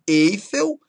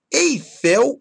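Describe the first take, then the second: First: "Eiffel" stressed on EI; stress on first syllable. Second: "Eiffel" stressed on FEL; stress on last syllable. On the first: Teacher showing what not to say, "Eiffel" as ÉI-fel. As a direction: wrongly hit EI in "Eiffel". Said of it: "e não Eiffel". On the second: Teacher giving the correct form, "Eiffel" as ei-FÉL. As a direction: hit the final FEL of "Eiffel". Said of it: "Eiffel e não Eiffel". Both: Shown as a demonstration.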